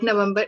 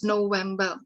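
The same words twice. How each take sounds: First: Said in the usual way. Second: November said the German way, "no-VEM-ba"; German pronunciation. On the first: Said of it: "Like, November is pronounced as November". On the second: Shown as a demonstration. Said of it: "is pronounced as November".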